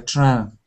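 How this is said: The word is said with a French-sounding vowel. The speaker calls it wrong. "came out a bit like uh, French, like the train"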